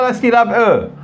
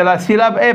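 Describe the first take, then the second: First: E said as rounded "eu"; wrong vowel. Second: E said as open "ay", like é; correct vowel. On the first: Teacher shows which syllable it is not, E as "eu". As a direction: round the final E into "eu". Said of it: "Non, c'est pas". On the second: Teacher corrects the syllable for class, E as "ay". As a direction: spread the final E into é, unrounded. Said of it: "C'est la syllabe E". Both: Shown as a demonstration.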